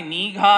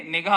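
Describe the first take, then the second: First: నీఘా with a drawn-out long ee; నీఘా, long first vowel, mocking; mocked long vowel. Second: నిఘా with a short i; నిఘా, short first vowel; correct short vowel. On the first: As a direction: stretch the నీ in నీఘా to mock it. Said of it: "దాన్ని నీఘా అని అనరు". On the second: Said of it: "అది కూడా నీకు పలకడం రాలా". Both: Shown as a demonstration.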